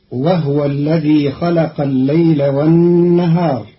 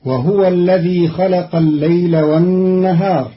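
First: وهو as wahwa, h unvoweled; Qalun wahwa. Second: وهو as wa-huwa; Hafs reading wahuwa. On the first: Teacher shows Qalun's sukun on the ha, pron. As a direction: drop the vowel on the h in وهو. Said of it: "بإسكان الهاء". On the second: Teacher recites the Hafs form first, pron. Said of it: "قرأ قالون كلمة وهو". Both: Shown as a demonstration.

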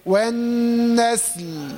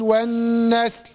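First: Slow chanted والنسل with a full final l; careful recitation, last consonant audible; clearly sounded lam. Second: والنسل with the closing l swallowed; faulty recitation, last consonant lost; dropped final lam. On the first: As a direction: hold the nasal n, then release both s and l. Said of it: "تحرص على اظهار الحرف". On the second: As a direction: say والنسل ending almost on the s. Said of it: "فين اللام؟". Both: Shown as a demonstration.

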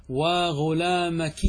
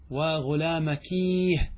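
First: وغلامكيه stretched, kee-h ending; slow drawn demo. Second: وغلامكيه drawn out, mournful kee-h ending; slow lament demo. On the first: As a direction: chant وغلامكيه slowly like a lament. (وغلامكيه بمد بطيء كالندبة) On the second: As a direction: wail وغلامكيه slowly as a lament. (وغلامكيه بصوت ندبة ممدود) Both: Shown as a demonstration. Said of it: "فكيف ننطقها؟".

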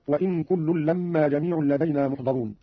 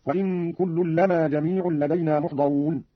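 First: Said in the usual way. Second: لما with a single, undoubled m: "lamaa"; light meem in لما. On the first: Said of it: "قرأ قالون بتخفيف الميم من لما". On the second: Shown as a demonstration. Teacher shows Qalun's reading, لما with a single m. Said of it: "بتخفيف الميم من لما هكذا".

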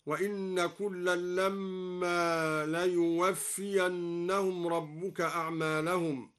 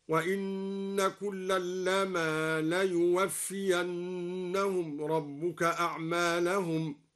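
First: Said in the usual way. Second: لما recited with a single light م, slow and drawn out; light mim recited. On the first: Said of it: "بتخفيف الميم من لما". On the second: Shown as a demonstration. Teacher recites al-Duri's light لما, slow chant. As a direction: recite لما without doubling the م. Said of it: "هكذا".

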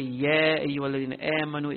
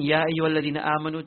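First: "Ya" and "amanu" bent from upright aa toward a flattened ae; bent vowels. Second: Said in the usual way. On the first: Shown as a demonstration. Teacher shows a reciter's error, bending "Ya" toward "yeah". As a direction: bend the long a in "Ya ayyuhalladhina amanu" toward "yeah". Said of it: "he bends the sound". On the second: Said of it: "So instead of saying".

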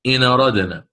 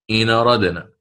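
Both takes have the same delivery.

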